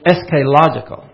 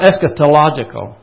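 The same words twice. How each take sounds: First: The T sound in the middle is left out. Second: The T sound in the middle is pronounced. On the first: The speaker calls it right. "It's eschatological. Every one of them said that" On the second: The speaker calls it wrong. "you don't pronounce the T. No, it's not eschatological"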